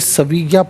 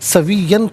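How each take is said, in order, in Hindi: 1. यह शब्द लंबे a स्वर पर ख़त्म होता है। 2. यह शब्द -an की आवाज़ पर ख़त्म होता है। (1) "वफ़ की सूरत में सविय्या पढ़ा जाएगा" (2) "सविय्यन पढ़ेंगे"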